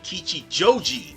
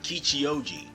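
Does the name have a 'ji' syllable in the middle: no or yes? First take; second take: yes; no. First: The middle has a 'ji' syllable before 'joji'. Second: The middle 'ji' syllable is dropped before 'oji'. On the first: The speaker calls it right. "It was supposed to be Kichijoji" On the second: The speaker calls it wrong. "not Kichioji"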